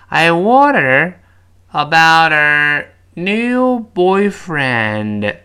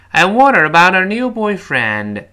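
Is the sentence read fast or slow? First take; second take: slow; fast. First: The sentence is read slowly, word by word. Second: The sentence is read quickly and smoothly. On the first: "我们先慢慢读把它拆解啊" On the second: "快一点。"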